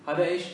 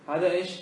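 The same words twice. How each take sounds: Both takes have the same delivery.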